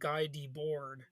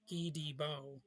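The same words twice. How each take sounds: First: The name is said with English-style sounds. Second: The name is said with French-style sounds. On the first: The speaker calls it wrong. "I used to pronounce it like" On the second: The speaker calls it right. "the real French pronunciation is"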